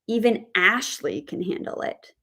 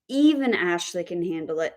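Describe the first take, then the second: First: The stress falls on the word Ashley. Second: The stress falls on the word even. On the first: The point is about this one person specifically. "if we put the word stress on the name Ashley, we say" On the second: If even she can handle it, anybody can. "we would put our word stress on the adverb even"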